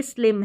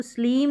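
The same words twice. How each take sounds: First: स्लिम with a short, quick "i"; short-vowel slim. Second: स्लिम with a long "ee", like "sleem"; wrong long-vowel slim. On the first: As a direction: keep the "i" in स्लिम short, not "sleem". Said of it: "इसमें short sound है". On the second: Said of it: "नहीं पढ़ेंगे". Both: Shown as a demonstration.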